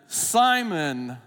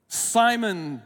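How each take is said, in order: No difference in how they are said.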